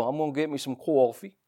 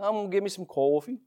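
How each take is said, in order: First: Put-on New York accent. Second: Light New York "I'm gonna get me some coffee"; New Yorker ordering coffee, lightly mocked; mock New York accent. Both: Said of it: "you hear them talk".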